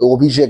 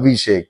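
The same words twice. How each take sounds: First: The name begins with an 'o' sound. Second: The name begins with an 'a' sound. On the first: The person is a Bengali. The speaker calls it wrong. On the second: The person is not a Bengali. The speaker calls it right.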